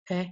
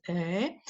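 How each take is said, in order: First: "e" cut short; short vowel. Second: "e" held long; long vowel. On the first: Lecturer showing Latvian vowel lengths, short "e". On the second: Lecturer showing Latvian vowel lengths, long drawn-out "e". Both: Shown as a demonstration. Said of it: "a long and short version".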